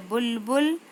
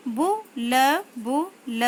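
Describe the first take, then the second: First: Said in the usual way. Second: बुलबुल drawn out very slowly, falling; slow syllable-by-syllable reading. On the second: Shown as a demonstration. Teacher slowly sounds out बुलबुल for pupils. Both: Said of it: "शब्द पढ़ेंगे".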